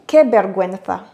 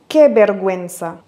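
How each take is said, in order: First: It is said with a Spain Spanish pronunciation. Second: It is said without a Spain Spanish pronunciation.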